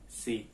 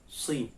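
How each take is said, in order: First: The s sound is plain and light. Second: The s sound is thick and heavy. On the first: "Sin biasa itu si" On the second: "Ini si"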